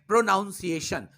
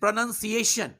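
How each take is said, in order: First: It is said in a common nonstandard form. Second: It is said in the standard form. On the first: The speaker calls it wrong. "इस शब्द को ही अधिकांश लोग गलत बोलते हैं" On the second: The speaker calls it right. "This is प्रोनाउंसिएशन"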